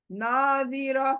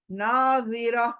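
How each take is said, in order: Both takes have the same delivery.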